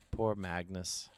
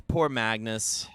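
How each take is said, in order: First: Muttered pity. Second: Mock pity. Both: Shown as a demonstration.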